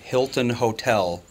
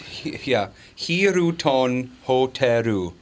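First: It has plain English sounds with no added vowels. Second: Extra vowels are added and the l becomes r. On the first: A local driver would not understand this form. The speaker calls it wrong. "They're not going to know what you're saying" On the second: This is the form a local driver would understand. The speaker calls it right. "as she had to say it"

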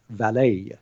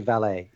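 First: The word ends with a small added flourish. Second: The word ends plainly with no added final sound. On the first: "You actually add a little sort of flourish on the end" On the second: "You don't just say valet"

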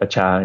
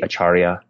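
First: The word is said in a shortened form. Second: The word is said in its full form. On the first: This is the form used in Cambodia. "but acha is how it's pronounced" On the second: This is the usual form outside Cambodia. "the more typical pronunciation outside of Cambodia would be acharya"

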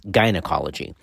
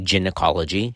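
First: It begins with a hard g sound. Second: It begins with a j sound, like gin. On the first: The speaker calls it right. "it's gynecology" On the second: The speaker calls it wrong. "we don't say gynecology"

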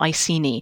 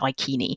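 First: The C is said as a soft S sound. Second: The C is said as a hard K sound. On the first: This is the older Victorian way of saying it. "The Victorians always preferred a soft C" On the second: This is probably closer to how it was said in the past. "a hard K is probably a little bit more like how people would have said it"

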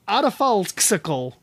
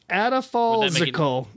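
First: The X is said with a ks sound. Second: The X is said with a z sound.

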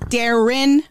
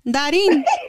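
First: The name is said with English-style vowels. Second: The name is said with Spanish-style vowels. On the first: This is the name as it is meant to be said. The speaker calls it right. "Like it's Darren, not Darin" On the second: This is how the family says the name. The speaker calls it wrong. "¿Dónde está Darin?"

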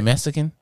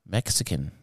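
First: The middle consonant is not a 'ks' sound. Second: The middle consonant is a 'ks' sound. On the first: "you thought I was supposed to say" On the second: "you actually pronounced it with an X?"

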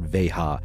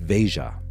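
First: The middle consonant is said as an H. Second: The middle consonant is said as a J. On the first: The speaker calls it wrong. "It's not an H. It's not Veja" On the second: The speaker calls it right. "you pronounce the J"

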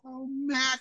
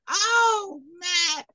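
First: The voice is pitched lower, like an older woman. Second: The voice is pitched higher, like a little girl. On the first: The character is an old woman. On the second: The character is a little girl.

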